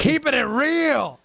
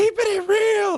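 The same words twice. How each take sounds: First: Chris Rock catchphrase. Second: Much higher, punchy comic-sketch delivery; Chris Rock catchphrase. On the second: Host quoting the comedy sketch catchphrase, high and punchy. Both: Retold or imitated. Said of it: "Remember that Chris Rock segment?".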